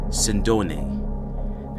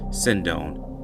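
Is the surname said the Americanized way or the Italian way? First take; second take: Italian; Americanized. First: The surname is said with its Italian pronunciation. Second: The surname is said with an Americanized pronunciation. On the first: This is how the surname itself is pronounced. "based on his surname, it is pronounced Sendone" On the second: This is how the news media say the name. "the traditional media pronunciation"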